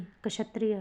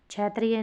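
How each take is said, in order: First: क्षत्रिय begun with "ksha"; corrected pronunciation. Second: क्षत्रिय begun with "ch" instead of "ksh"; wrong pronunciation. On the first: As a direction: say क्षत्रिय as "ka-shatriya". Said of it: "होगा". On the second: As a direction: say क्षत्रिय as "chatriya". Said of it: "नहीं". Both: Shown as a demonstration.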